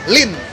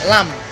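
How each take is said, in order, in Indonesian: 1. Berakhiran n dengan vokal i. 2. Berakhiran m dengan vokal a. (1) "kalau misalnya Mandarin" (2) "kalau Kanton bahasa Kantonnya"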